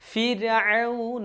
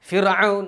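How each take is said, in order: First: The r sound is thin and light. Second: The r sound is heavy and forceful. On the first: The speaker calls it right. "റനെ തർക്കീഖ് ചെയ്ത് നേർപ്പിച്ചാണ് പറയേണ്ടത്" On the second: The speaker calls it wrong. "മലയാളത്തിൽ ... ഫിർഔൻ എന്നൊക്കെ പറയും ദേഷ്യം കൊണ്ട്"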